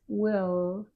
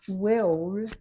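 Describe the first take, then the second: First: The final L is made with the tongue only. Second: The final L is made with rounded lips. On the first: The speaker calls it right. "it's will. Only the tongue makes the O, not the lips" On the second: The speaker calls it wrong. "It's not will, it's not made with the lips"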